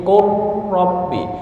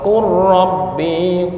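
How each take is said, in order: No difference in how they are said.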